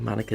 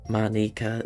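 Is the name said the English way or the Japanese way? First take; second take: English; Japanese. First: The name is said with an English pronunciation. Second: The name is said with a Japanese pronunciation. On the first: "the English version of pronunciation" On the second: "the Japanese way"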